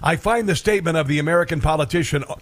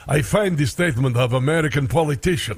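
First: It is said in the speaker's ordinary American accent. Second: It is said in a put-on Russian accent.

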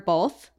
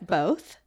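First: An L sound is added before the th. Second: There is no L sound before the th.

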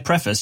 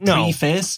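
First: The word sounds like 'pref-iss', first syllable stressed. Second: The word sounds like 'pree' plus 'face'. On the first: "she doesn't say preface" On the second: "She pronounces it preface"

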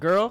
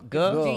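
First: The word ends with clear r and l sounds. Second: The word ends without r and l sounds. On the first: "Not girl" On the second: "So in Alabama, we say guh"

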